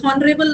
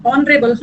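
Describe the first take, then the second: First: हॉनरेबल with a breathy h sounded at the start; wrong aspirated h. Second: ऑनरेबल with no h, starting on a bare vowel; silent h. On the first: Teacher to students, demonstrating the wrong हॉनरेबल with h. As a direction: voice the h in हॉनरेबल to show the mistake. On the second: Teacher to students, modelling the right ऑनरेबल with silent h. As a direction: say ऑनरेबल cleanly, dropping the h. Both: Shown as a demonstration. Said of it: "हॉनरेबल नहीं".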